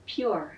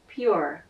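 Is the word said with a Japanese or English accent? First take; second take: English; English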